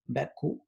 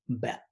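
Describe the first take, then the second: First: It ends with a full U vowel sound. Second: It ends with a W-like glide, not a vowel. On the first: The speaker calls it wrong. "if I were going to put a U in front of the C instead of W, it would sound like this" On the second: The speaker calls it right. "that W, um, it's a it's a sound that we don't find either in Spanish or English"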